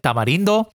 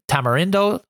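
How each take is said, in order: First: It is said with a Spanish accent. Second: It is said with an English accent.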